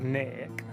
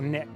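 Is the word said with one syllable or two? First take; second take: two; one. First: It is drawled out into two syllables. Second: It is said plainly as one syllable.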